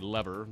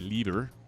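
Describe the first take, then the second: First: It uses the usual American pronunciation. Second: It uses the other, non-American pronunciation. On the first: "Here in the States, we typically say lever" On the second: "but some people say lever"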